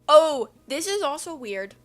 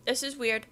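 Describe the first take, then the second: First: Loud, high exclamation; surprised discovery. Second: Said in the usual way. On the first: Real, not acted. Reader finding another weird passage, surprised exclamation. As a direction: exclaim it on spotting another oddity. Exclaims, then repeats more calmly.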